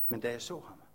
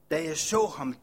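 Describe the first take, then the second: First: Softer, hushed first take of the phrase with a falling "så"; hushed awe. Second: Said in the usual way. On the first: Acted. Leper recalling first seeing Jesus, hushed awe. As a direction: breathe it out in quiet wonder.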